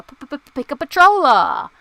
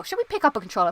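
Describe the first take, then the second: First: Goofy mock announcer shout; playful stuttering call-out. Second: Said in the usual way. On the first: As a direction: belt it out after popping the P's. Playfully repeats own question, exaggerated.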